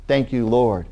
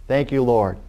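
No difference in how they are said.

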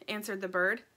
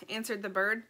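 The two takes are said the same way.

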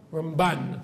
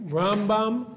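First: RamBAN, final syllable stressed; stress on second syllable. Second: RAMbam, slow, with a strong RAM; stress on first syllable. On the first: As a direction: pass lightly over Ram and land on BAN in Ramban. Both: Shown as a demonstration. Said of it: "that's how you can remember".

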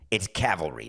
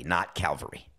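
First: "cavalry" with the v before the l, CAV-al-ry; setting the record straight on the right word; correct pronunciation. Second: "Calvary" with the l before the v, CAL-va-ry, softer; name the mistake he made, Calvary; the mispronunciation he is owning up to; wrong pronunciation. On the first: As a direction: stress the first syllable and keep the v clear, cavalry. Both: Shown as a demonstration. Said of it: "I said the word wrong".

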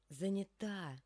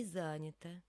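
First: Занята stressed on the final А; end-stressed Занята; last-syllable stress. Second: Занята stressed on the first syllable; wrong stress. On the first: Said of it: "На последний слог здесь падает ударение". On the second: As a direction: hit ЗА at the start of занята. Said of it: "а не занята". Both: Shown as a demonstration.

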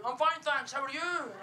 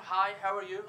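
First: High, exaggerated Scottish lilt; mimicked Scottish accent. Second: Said in the usual way. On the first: Strangers answering the comedian back, mock Scottish accent. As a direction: parrot a greeting back in an overdone Scottish accent. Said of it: "they speak back to me in a Scottish accent". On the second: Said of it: "It could be a normal conversation".

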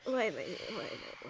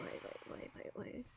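First: Said in the usual way. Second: The repeated question dropping to a whisper; a whisper to herself, repeating "why am I"; fading to a whisper. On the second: Acted. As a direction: let "why am I" fade into a breathy whisper. Talking to herself in embarrassment.

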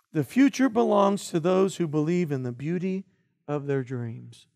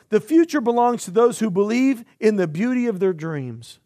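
First: "The future belongs to those who believe in the beauty of their dreams" said softer, easing down and slowing on "of their dreams"; slow, soft restatement. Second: Said in the usual way. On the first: Shown as a demonstration. Pastor re-reading Roosevelt's line to let it land, soft and slow. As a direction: let the quote sink in, quieter and slower at the end. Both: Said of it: "Not just in the dream".

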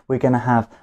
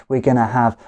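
Both takes have the same delivery.

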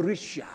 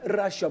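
First: Risha with a short i as in rich; right pronunciation. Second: Rasha said with an open a, the form he rejects; wrong pronunciation. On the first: Teacher correcting the word, Risha with a short i as the right form. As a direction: say Risha, short i, stress on the first syllable. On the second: Teacher correcting the word, Rasha with an open a as the error. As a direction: say Rasha, a as in father, as the mistake. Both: Shown as a demonstration. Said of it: "Risha, not Rasha".

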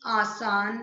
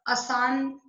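First: Said in the usual way. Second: आसान said "asaan", short first a; wrong short vowel. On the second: Shown as a demonstration. Teacher showing the wrong word, आसान with short first a. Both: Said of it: "अशुद्ध और शुद्ध".

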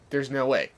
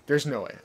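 Both takes have the same delivery.

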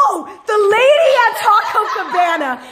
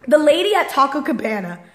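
First: High, loud burst of exasperation; gasp, then blurt it out high and loud; worked-up, laughing exclamation; exasperated outburst. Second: Said in the usual way. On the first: Real, not acted. Remembering the lady, erupts in exasperation.

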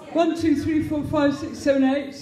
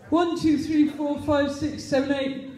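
No difference in how they are said.

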